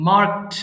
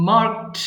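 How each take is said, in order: No difference in how they are said.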